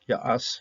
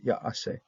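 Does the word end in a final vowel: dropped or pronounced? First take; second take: dropped; pronounced. First: The word ends without its final vowel syllable. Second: The word ends with its final vowel syllable. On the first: The second syllable has no vowel pointing here. "You're going to pronounce the first one, Ya'as, and that was it" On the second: Every syllable of the verb is vowel pointed here. "Here we say Ya'ase"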